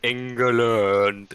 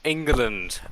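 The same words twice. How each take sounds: First: It is said imitating the team's own pronunciation. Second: It is said in the speaker's usual pronunciation.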